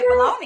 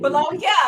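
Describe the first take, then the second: First: Said the American way, ending in an 'ee' sound. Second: Said the Italian way, ending in a 'nya' sound. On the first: "That's why I say baloney" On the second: "So that's the Italian way"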